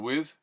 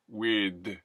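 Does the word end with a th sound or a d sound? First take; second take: th; d. First: The word ends with a voiced th sound. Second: The word ends with a d sound.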